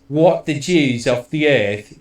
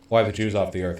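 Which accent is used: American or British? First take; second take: British; American. First: It is said in a British accent. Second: It is said in a plain American accent. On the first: "he says it in a British way" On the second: "instead of saying like"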